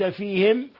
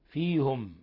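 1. الحركة بعد الهاء في "fihim" كسرة. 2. الحركة بعد الهاء في "fihim" ضمة. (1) "وقرأ الباقون بكسر الهاء" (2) "بضم الهاء"

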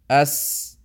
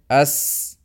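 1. Bunyi s membiarkan napas keluar dengan bebas. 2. Bunyi s membiarkan napas keluar dengan bebas.

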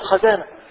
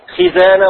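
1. الحركة الأولى هي 'a' المفتوحة. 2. الحركة الأولى هي 'i'. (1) "ولا تقل خزانة" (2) "وقل خزانة"

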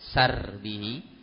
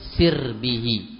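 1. Vokal pertama adalah bunyi 'a' terbuka. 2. Vokal pertama adalah bunyi 'i' tinggi. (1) "bi fathis sin dengan menfathah sinnya" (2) "dibaca dengan mengkasrah sinnya"

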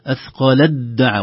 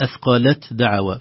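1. تندمج t في صوت d مشدد. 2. تُنطق t منفصلة قبل d.

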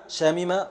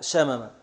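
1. الحركة بعد الميم الأولى كسرة. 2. الحركة بعد الميم الأولى فتحة. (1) "من بابي عالم شامما" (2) "وقتل شامما"

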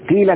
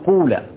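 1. الحركة الأولى كسرة خالصة. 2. الحركة الأولى ضمة خالصة. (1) "الكسر إشباع الكسر أو إخلاص الكسر" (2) "إخلاص الضم"

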